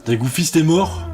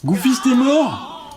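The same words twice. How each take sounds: First: Dawning disbelief, rising at the end; puzzled question. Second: High, drawn-out cry of disbelief; shocked outcry. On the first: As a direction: ask it as the news sinks in. First notices game character's death. (question incrédule, encore retenue) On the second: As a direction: cry it out, stunned. Game character has died. (cri aigu de stupeur) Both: Real, not acted.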